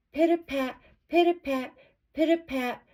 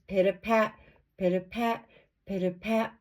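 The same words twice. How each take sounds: First: High, pattering steps; light little footsteps. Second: Pursuing footsteps. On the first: Girl's light steps hurrying home. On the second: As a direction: count out the wolf's following tread. Wolf's steps coming behind her. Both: A narrator's reading.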